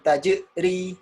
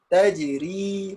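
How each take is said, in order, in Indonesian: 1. Bunyi j punya pantulan kuat dan berat. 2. Bunyi j punya pantulan ringan dan kecil. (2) "Kalau ini sugro"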